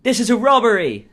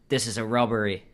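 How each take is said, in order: First: Put-on loud, high-pitched robber with an English accent. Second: Lightly voiced character with an English accent; put-on English accent. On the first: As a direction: shout it in a hammed-up English accent. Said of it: "His English". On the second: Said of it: "What is that accent?".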